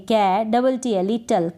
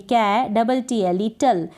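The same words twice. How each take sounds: The two takes are said the same way.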